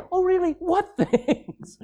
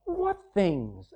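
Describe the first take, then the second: First: High, laughing mock surprise; amused dad. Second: Soft, innocent feigned ignorance; innocent question. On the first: Dad gently teasing his moping teenager, laughing and high. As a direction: tease it like a dad who knows better. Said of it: "And what does Dad say?". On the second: Acted. Jesus playing dumb with the grieving disciples, softly innocent. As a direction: ask it quietly as if you know nothing. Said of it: "and Jesus said to them".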